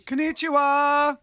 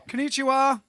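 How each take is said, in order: First: Higher, louder, slow "Konnichiwa"; cheery Japanese greeting. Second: Higher, louder "Konnichiwa"; cheery Japanese greeting. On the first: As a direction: greet them big and bright. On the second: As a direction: greet them again with gusto. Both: Acted.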